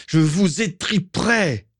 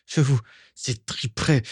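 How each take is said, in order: First: Slow, high-pitched furious cry; angry cry. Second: Higher-pitched but held-back threat; angry threat. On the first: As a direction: draw the threat out into a high cry. (cri de rage étiré) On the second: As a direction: start the threat through rising anger, without shouting. (menace contenue, qui monte) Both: A narrator's reading. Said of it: "cria-t-il".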